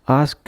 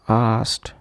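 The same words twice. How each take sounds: First: The word ends in a d sound. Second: The word ends in a t sound. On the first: The speaker calls it wrong. "and not as d" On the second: The speaker calls it right. "is to be pronounced as t"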